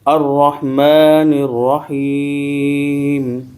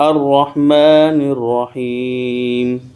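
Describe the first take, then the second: First: The last word stops on the 'm' sound. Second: The last word stops on the 'm' sound.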